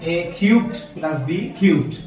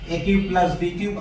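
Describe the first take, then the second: First: The word 'cubed' ends with a d sound. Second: The word 'cube' ends without a d sound. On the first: The speaker calls it right. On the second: The speaker calls it wrong.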